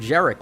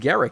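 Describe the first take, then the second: First: The name begins with a J sound. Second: The name begins with a hard G sound. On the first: "as if the G in his name was pronounced with a hard J" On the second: "I guess it's Garrick"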